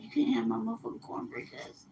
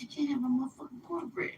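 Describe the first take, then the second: First: Softer, hushed warning over cornbread; kind of whispered. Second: Hushed warning. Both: Shown as a demonstration. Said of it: "Like that, I kinda whispered it".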